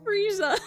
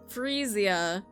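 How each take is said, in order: First: The name ends with a short 'za' sound. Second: The name ends with a 'zia' sound. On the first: The speaker calls it wrong. "I keep saying Frieza... It's not Frieza" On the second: The speaker calls it right. "that's not Frieza. Frezia"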